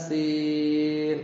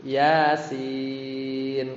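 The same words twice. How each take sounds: First: "Yasin" with "Ya" held far too long; level chant overstretching "Ya"; wrong recitation. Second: "Yasin" with "Ya" two beats, "sin" long; slow chant, holding "sin" longer than "Ya"; measured "Ya" into a stretched "sin"; correct recitation. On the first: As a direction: drag out both syllables of "Yasin". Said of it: "bacanya bukan". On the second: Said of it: "Jadi harusnya". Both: Shown as a demonstration.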